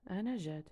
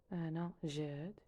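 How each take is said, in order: First: Said in the usual way. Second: أنا جاد said slowly, rising on أنا; slow repeat. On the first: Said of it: "teacher models Darija phrase". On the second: Shown as a demonstration. Teacher slowly repeating the introduction for learners. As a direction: draw out أنا جاد for the class. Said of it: "teacher repeats phrase slowly".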